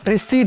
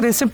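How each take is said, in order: First: The p is silent, ending in a long ee-t. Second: The p is pronounced before the final t. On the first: The speaker calls it right. "रिसीट बोला जाता है" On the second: The speaker calls it wrong. "इसको रिसिप्ट नहीं"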